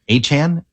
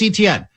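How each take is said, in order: First: The surname is said the player's own way. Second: The surname is said the familiar, anglicized way. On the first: This is how the player wants it said. The speaker calls it right. "what it really is, is Travis Achan" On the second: This is how everyone has been saying it. The speaker calls it wrong. "We've all been saying Travis Etienne"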